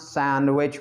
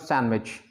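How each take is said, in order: First: Every consonant in the middle is pronounced. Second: A middle consonant is dropped from the word. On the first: "Indians pronounce sandwich" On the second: "but it becomes sandwich"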